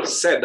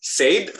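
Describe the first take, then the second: First: Said as "sed"; "said" with a plain E and no glide; option two, short E. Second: Said as "sayd", drawn into a glide; "Said" rhyming with "made"; option one, sounded I. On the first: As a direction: say "said" to rhyme with "bed". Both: Shown as a demonstration. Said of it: "Number one atau number two".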